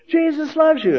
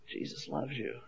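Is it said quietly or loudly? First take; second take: loudly; quietly. First: It is yelled loudly. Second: It is said quietly.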